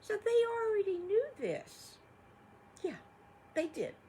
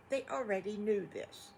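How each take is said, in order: First: Much higher and louder, eager; storyteller's big emphatic aside. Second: Said in the usual way. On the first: Acted. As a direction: make the kids feel the surprise. Storyteller stresses the mamas knew.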